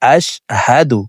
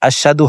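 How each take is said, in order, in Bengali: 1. h ধ্বনিটি গলার গভীর থেকে আসে। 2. h ধ্বনিটি সহজ ও হালকা। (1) "হা হরফের উচ্চারণ হলকের শুরু থেকে পড়িতে হয়" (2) "আশহাদু হবে না"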